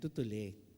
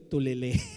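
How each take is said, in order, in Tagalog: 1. Magkasunod ang mga pantig, kaya tutuli. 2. Nagpapalit ang mga pantig, kaya tulile. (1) "Ayan, tutuli" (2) "nababaliktad ko eh. Nabab, nababanggit ko tulile"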